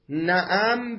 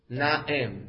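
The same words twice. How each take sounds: First: "نعم" said na'am, with an a after the ayn; fath on the ayn. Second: "نعم" said na'em, with an e after the ayn; kasra on the ayn. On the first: Teacher reading out the word's first form, "نعم" pronounced na'am. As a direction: say "نعم" slowly as na'am, open second vowel. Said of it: "به فتح العین". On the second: Teacher answering his own question to students, "نعم" pronounced na'em. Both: Shown as a demonstration.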